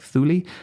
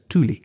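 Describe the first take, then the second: First: The word begins with a soft th sound. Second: The word begins with a hard t sound. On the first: This is the Greek and English way. "The Greek and the English pronounce it with a soft th" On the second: This is the Danish way. "the Danish pronounce it with an initial hard t"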